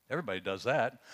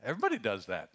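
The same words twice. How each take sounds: First: "Everybody does that" with the weight landing on "that"; stress on THAT. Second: "everybody" punched first, then falling off through "does that"; stress on EVERYBODY. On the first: Preacher to congregation, stressing the final "that". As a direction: lean into the last word "that". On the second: Preacher to congregation, stressing "everybody" with a falling tune. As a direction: hit "everybody" hard and let the line fall. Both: Shown as a demonstration.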